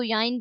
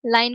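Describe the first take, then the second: First: याइन with Y replacing the L; child's gliding error. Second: Said in the usual way. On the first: Retold or imitated. Lecturer shows a child's gliding, याइन with Y for L. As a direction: say L as a Y glide in याइन. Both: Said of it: "लाइन को याइन बोलना".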